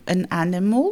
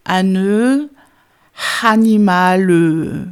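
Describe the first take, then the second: First: 'an animal' linked smoothly in English, n running into the vowel; plain English model; correct English. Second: 'ane, animal' much louder and very slow, split apart with an extra e vowel; hammed-up mock francophone English; French speaker's mistake. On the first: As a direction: join 'an animal' like a native speaker. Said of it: "vous prenez an animal". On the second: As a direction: overdo a francophone chopping 'ane' and 'animal'. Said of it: "le francophone va dire". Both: Shown as a demonstration.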